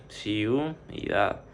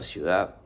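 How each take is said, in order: First: "ciudad" in two separate beats, "ciu" then "dad"; dividido em sílabas. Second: Said in the usual way. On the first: Shown as a demonstration. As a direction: split "ciudad" with a pause after the diphthong. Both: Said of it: "Se divide así".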